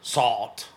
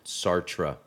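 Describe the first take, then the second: First: The name is said the French way, clipped. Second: The name is said with every syllable pronounced. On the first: "I think the French say salt" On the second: "because that's how it's spelled, and right. Americans pronounce every syllable"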